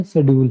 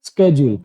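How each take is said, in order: First: शेड्यूल begun with a plain "sh/s" sound, no k; common local pronunciation. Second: स्केड्यूल begun with an "sk" cluster; exact pronunciation. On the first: Teacher showing students what people mostly say, शेड्यूल with no k. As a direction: say शेड्यूल as "se-dyool", without any k. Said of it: "इसको mostly अपने क्या बोलते हैं". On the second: Teacher giving students the exact pronunciation, स्केड्यूल with sk. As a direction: say स्केड्यूल as "ske-jool", k clearly sounded. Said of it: "exact pronunciation आप इसको". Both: Shown as a demonstration.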